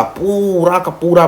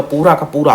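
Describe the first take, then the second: First: पूरा stretched long on its first vowel; slow down and draw out पूरा; drawn-out emphasis. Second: Said in the usual way. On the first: Real, not acted. Teacher stressing Bismarck's total reliance on diplomacy, पूरा drawn out.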